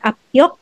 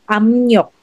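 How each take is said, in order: First: The first syllable ends in a p sound. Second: The first syllable ends in an m sound. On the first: The speaker calls it wrong. "It's not apyok" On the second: The speaker calls it right. "but magiging amyok"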